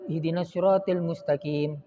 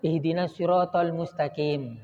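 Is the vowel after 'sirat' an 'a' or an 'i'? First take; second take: i; a. First: The vowel after 'sirat' is 'i'. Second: The vowel after 'sirat' is 'a'. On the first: The speaker calls it wrong. "saya jadi imam" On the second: The speaker calls it right. "maka yang ditegur sama ihdinas siratal mustaqim"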